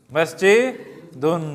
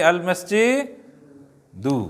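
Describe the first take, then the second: First: مسجدن read very slowly with the ending nun clearly sounded; drawn-out مسجدن, stressing the final -un; teacher's slow demo. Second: المسجدو read very slowly, ending in a clear -du with no nun; drawn-out المسجدو with a falling -du at the end; teacher's slow demo. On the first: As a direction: stretch out مسجدن ending in -dun. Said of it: "تو ایک دو میں پڑھتا ہوں". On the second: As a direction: stretch out المسجدو and close on -du. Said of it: "دو، دن نہیں کہنا". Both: Shown as a demonstration.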